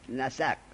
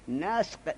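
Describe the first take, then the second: First: The s takes an a vowel, said as nasaq. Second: The s is unvoweled, said as nasq. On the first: The speaker calls it right. "نسق را به فتح سین بخوان" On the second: The speaker calls it wrong. "نه به سکون، نسق نخوان"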